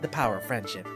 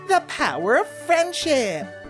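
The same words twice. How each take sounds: First: It is said flatly, without much enthusiasm. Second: It is said brightly, with bubbly enthusiasm. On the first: The speaker calls it wrong. "It's not" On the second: The speaker calls it right. "speaking with that many rainbows"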